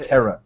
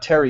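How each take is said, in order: First: The word ends in an 'uh' sound. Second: The word ends in an 'ee' sound. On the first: The speaker calls it right. "it's like Terra, like Terra" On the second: The speaker calls it wrong. "It's not Terry either"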